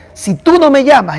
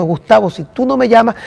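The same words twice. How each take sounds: First: "tú" dicho más alto y marcado; stress on tú. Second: Said in the usual way. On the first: Retold or imitated. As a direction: carga el peso en "tú", tono alto. Repite la frase del amigo. (énfasis en "tú", más agudo)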